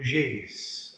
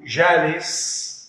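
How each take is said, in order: First: The long vowel leans toward 'ee', Aleppo-Lebanese style. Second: The long vowel is a plain open 'aa'.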